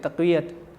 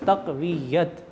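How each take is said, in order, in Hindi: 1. बीच की 'y' ध्वनि छोटी और एकल है। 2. बीच की 'y' ध्वनि दोहरी और खिंची हुई है। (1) "बहुत सारे लोग तक़वियत कह देते हैं" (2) "शद और ज़बर के साथ दुरुस्त है"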